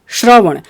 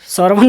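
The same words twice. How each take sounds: First: The word begins with an 'sh' sound. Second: The word begins with a plain 's' sound. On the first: The speaker calls it right. "श्रवण बोलना है" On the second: The speaker calls it wrong. "श्रवण नहीं बोलना है मेरे भाई"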